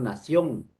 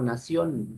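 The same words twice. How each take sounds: First: The final n is made at the soft palate. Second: The final n is made at the gums. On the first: The speaker calls it right. "decimos nación; La última N es velar" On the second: The speaker calls it wrong. "No decimos nación"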